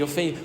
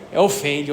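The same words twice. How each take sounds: First: Ofende repeated much softer, trailing off; soft echo of the word. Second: Ofende said plainly, as the regional word for a snakebite; explaining a local word. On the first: Priest repeats the word ofende for listeners, soft trailing echo. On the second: Priest explains the Mato Grosso word ofende to outsiders, plain and clear. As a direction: state the word ofende clearly as a teaching example. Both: Shown as a demonstration. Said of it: "Quando a cobra morde".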